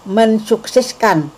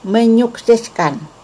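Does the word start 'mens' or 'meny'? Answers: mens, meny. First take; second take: mens; meny. First: It begins with an N followed by an S sound. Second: It begins with an NY sound and no S. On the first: The speaker calls it wrong. "bukan mensukseskan" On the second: The speaker calls it right. "yang benar adalah menyukseskan"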